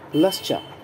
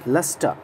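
First: The word ends with a 'cha' sound. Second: The word ends with a 'ter' sound. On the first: The speaker calls it wrong. "बहुत लोग इसे लश्चा पढ़ते हैं, जैसा मैंने अभी पढ़ा था" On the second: The speaker calls it right. "ट के बाद अ साउंड आप बोलें"

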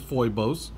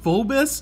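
First: The first vowel is an 'oy' sound. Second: The first vowel is not an 'oy' sound. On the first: This follows the OI in the spelling. "which kind of sounds like foibles" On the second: This is how others say the name. "I've heard it pronounced Phoibos"

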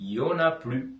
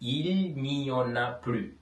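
First: The start is dropped and syllables run together. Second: Every syllable is said in full. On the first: "அதை நாங்கள் சுருக்கி சொல்லுவோமா" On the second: "ஒழுங்கா அந்த முழு உச்சரிப்பு"

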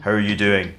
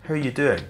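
First: It is said flat, in a monotone. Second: It is said lively, with varied inflection. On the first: "It's monotone" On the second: "I haven't had said them with the same pauses, the same inflections"

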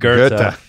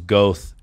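First: The name is said with an r-like sound. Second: The name is said without an r-like sound. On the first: The speaker calls it right. "There's a secret R in there" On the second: The speaker calls it wrong. "my whole life I thought it was Goethe"

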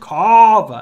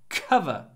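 First: The first vowel is drawn out long. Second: The first vowel is kept short. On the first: The speaker calls it wrong. "It's not cover" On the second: The speaker calls it right. "And the is short. It's cover"

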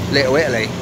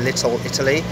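First: The T in 'little' is a glottal stop. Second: The T in 'little' is a clear T. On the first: "you notice little glottal stop on the T's, and I don't pronounce the L properly" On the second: "which would be the received pronunciation way of saying it"

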